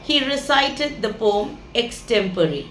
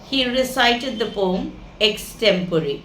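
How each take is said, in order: No difference in how they are said.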